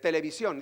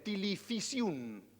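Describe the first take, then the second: First: The v sounds like a Spanish b. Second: The v sounds like an f.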